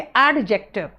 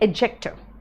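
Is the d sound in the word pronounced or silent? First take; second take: pronounced; silent. First: The d sound is pronounced in the word. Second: The d sound is left silent in the word. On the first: The speaker calls it wrong. "देख के पढ़ोगे तो कहोगे एडजेक्टिव" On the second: The speaker calls it right. "ये डी silent है, इसलिए इसको कहेंगे एडजेक्टिव"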